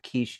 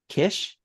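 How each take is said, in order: First: The name has a long vowel, like 'quiche'. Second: The name has a short vowel, like 'dish'. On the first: "at least that's how I'm pronouncing it" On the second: "Could be Kish"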